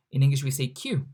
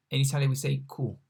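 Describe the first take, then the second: First: Q said the English way, kyoo. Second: Q said the Italian way, koo, quicker. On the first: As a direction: model the English letter Q. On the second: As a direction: model the Italian letter Q. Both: Shown as a demonstration. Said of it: "As you can hear".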